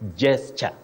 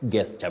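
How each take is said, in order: First: The word begins with a j sound. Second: The word begins with a hard g sound. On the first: The speaker calls it right. "takes sound j" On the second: The speaker calls it wrong. "sound g is wrong in that word"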